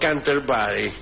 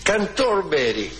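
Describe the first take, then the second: First: The middle syllable has an 'e' vowel sound. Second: The middle syllable has an 'o' vowel sound. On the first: This is the form the text rejects. "no Canterbury" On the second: This is the form the text uses. "como dice especialmente a mí, aquí"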